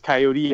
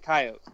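First: The word ends with a clear final E sound. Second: The word ends without a final E sound. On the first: This is how it is said when talking about hunting. "the E is enunciated" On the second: This is how the speaker grew up saying it. "I grew up saying coyote"

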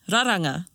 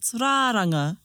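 First: All the vowels are said short. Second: One vowel is drawn out long. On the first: The speaker calls it right. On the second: The speaker calls it wrong.

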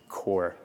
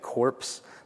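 First: The final p and s sounds are silent. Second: The final p and s sounds are pronounced. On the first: The speaker calls it right. "It's just core" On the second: The speaker calls it wrong. "you want to say corpse, but it's not"

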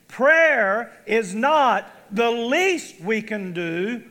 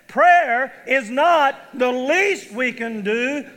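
First: It is said in a flat, droning way. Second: It is said with conviction and belief.

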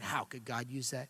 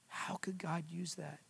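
First: It sounds doubting and bitter. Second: It sounds full of wonder and reflective.

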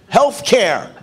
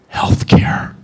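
First: The words are spoken in full voice. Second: The words are whispered.

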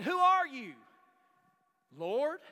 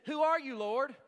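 First: It sounds startled, with sudden realization. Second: It sounds like a plain, calm question.

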